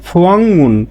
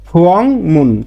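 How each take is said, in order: First: An ng sound comes before the m. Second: The same.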